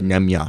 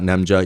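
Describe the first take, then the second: First: The j is said like an English y. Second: The j is said like an English j. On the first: The speaker calls it right. "the J is pronounced with a, a Y sound" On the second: The speaker calls it wrong. "Not Nemja"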